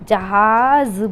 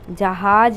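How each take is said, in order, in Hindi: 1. इसे z ध्वनि से बोला जाता है। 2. इसमें केवल सादी j ध्वनियाँ बोली जाती हैं। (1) "जहाज बोलेंगे" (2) "जहाज नहीं"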